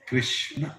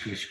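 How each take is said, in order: First: The word is said fully with both syllables. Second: The word stops short after krish. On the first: The speaker calls it right. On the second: The speaker calls it wrong. "not Krish"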